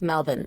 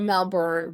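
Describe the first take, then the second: First: The last syllable is short and reduced. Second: The last syllable is said fully, like born. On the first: "but they're like Melbourne" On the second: "We're Melbourne, born Melbourne"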